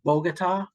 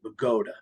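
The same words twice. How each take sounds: First: It is pronounced like the Colombian capital. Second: It is pronounced the local New Jersey way. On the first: This is how the name looks on a map. "it looks like Bogota, just like Colombia" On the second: This is how the town's locals say it. "in Bergen County, we pronounce it Bogota"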